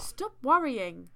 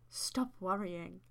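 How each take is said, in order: First: "Stop worrying" said louder and drawn out; firm self-command. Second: Said in the usual way. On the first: Acted. Host acts walker scolding herself, "Stop worrying" loud and slow. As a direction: punch "Stop worrying" slowly as an order to yourself. First take of story self-talk.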